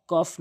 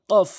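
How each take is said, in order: First: "কফ" with an ordinary forward k; mistaken light K. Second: "কফ" as qof, pushed from the tongue root; correct deep Qaf. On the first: Teacher showing what not to say, light k "কফ". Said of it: "কফ না". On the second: Teacher correcting after the wrong take, deep "কফ". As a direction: push a back q at the start of "কফ". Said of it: "ধাক্কা দিয়ে". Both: Shown as a demonstration.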